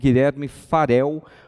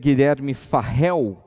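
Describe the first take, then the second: First: The R in Farel is a single light R. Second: The R in Farel is a strong double R. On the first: This is how it would be pronounced in Portuguese. The speaker calls it right. "com um R só, da forma correta" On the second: This follows the spelling some authors use. The speaker calls it wrong. "alguns autores que costumam dizer Guilherme Farrell"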